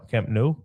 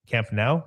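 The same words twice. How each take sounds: First: Nou said as noʊ, rhyming with go. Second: Nou said as naʊ, rhyming with cow; Nou like now. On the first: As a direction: say Nou like the word no, rising. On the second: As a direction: say Nou like the word now, rising. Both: Shown as a demonstration. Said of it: "However you call it".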